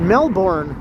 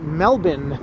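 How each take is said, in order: First: The name is said the way it is spelled. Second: The name is said with a reduced ending. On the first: The speaker calls it wrong. "a lot of people mispronounce it as Melbourne" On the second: The speaker calls it right. "it's actually more like Melbourne"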